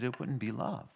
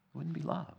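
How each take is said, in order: First: Said in the usual way. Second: Soft repeat. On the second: Shown as a demonstration. Softer repeat of the line.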